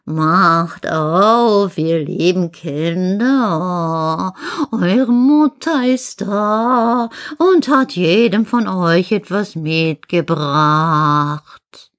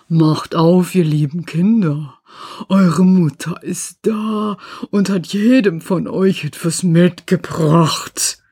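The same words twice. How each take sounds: First: Very slow, drawn-out sweetened wolf voice; wolf's fine voice. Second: Slow, rough voice of the wolf. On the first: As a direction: coax in long, singsong vowels as a disguised wolf. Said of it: "machte damit seine Stimme fein". (fein verstellte, gedehnte Wolfsstimme) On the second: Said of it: "hörten an der rauen Stimme". (raue Wolfsstimme) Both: Acted.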